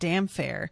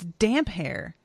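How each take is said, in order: First: The middle is said with an F sound. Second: The middle is said with a separate P and H. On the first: The speaker calls it wrong. "we pronounced it damn fair" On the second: The speaker calls it right. "but it's damp hair"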